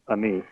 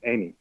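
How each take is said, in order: First: The name is said in a regional pronunciation. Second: The name is said in the standard pronunciation. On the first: The speaker calls it wrong. "Where I'm from, we pronounce that a uh, Ami" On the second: The speaker calls it right. "I apologize"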